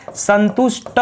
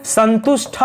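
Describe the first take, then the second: First: संतुष्ट slowly, ending in a plain ट; no puff of air on the final ट of संतुष्ट; slow corrected संतुष्ट, san-tush-ta; unaspirated ending. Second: संतुष्ट misread with ठ at the end, san-tush-tha; wrong संतुष्ट ending in an aspirated tha. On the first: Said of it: "संतुष्ट होता है". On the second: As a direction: puff air on the last consonant of संतुष्ट. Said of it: "संतुष्ट नहीं होता है". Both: Shown as a demonstration.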